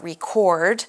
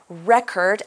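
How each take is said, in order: First: The stress is on the second syllable. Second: The stress is on the first syllable. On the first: The word is used as a verb. The speaker calls it wrong. "and not record" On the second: The word is used as a noun. The speaker calls it right. "record is a noun. That's why we say record"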